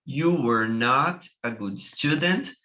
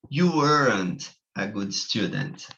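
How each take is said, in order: First: You were not a good student with not spoken separately; full form. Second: You weren't a good student with weren't as one word; contracted form. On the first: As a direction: give not its own clear beat. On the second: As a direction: squeeze were not into weren't. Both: Shown as a demonstration. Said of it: "duas maneiras de se falar".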